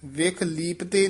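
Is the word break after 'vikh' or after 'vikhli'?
after vikh. The break comes after the first syllable 'vikh'. The speaker calls it wrong. "ਵਿਖ ਲੀਪਤੇ ਨਹੀਂ ਕਹਿਣਾ ਹੈ"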